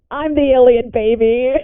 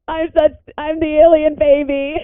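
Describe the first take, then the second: First: Said in the usual way. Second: Higher, half-laughing, half-sobbing repeat; cracking up in mock despair at the twist; laugh-crying disbelief. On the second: Real, not acted. Player realizing their character's secret, laugh-crying.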